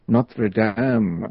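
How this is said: The name is said with a French pronunciation.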